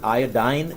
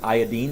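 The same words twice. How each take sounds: First: The last syllable does not end in 'een'. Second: The last syllable ends in an 'een' sound. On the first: This is the usual North American way. The speaker calls it wrong. "In North America, for some reason, we pronounce it" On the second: It matches the other element names ending in -ine. The speaker calls it right. "is supposed to be pronounced iodine because it's continuing with the enes"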